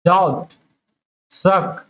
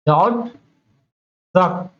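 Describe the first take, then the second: No difference in how they are said.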